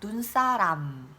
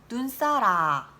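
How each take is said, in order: First: The word ends with a closed-lip m sound. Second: The word ends open, without the final m. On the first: The speaker calls it right. "이렇게 입이 다물어진 상태에서 끝나야 되는데" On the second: The speaker calls it wrong. "하고 입이 벌어진 상태로 이제 끝이 나는 거죠"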